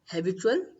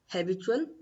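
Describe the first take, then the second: First: It is pronounced with English sounds and stress. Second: The same.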